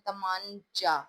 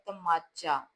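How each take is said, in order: First: An n sound is heard before the ch. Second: No n sound is heard before the ch. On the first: The speaker calls it wrong. "अगर हम बोलें तमांचा" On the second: The speaker calls it right. "इसमें नून की आवाज silent है"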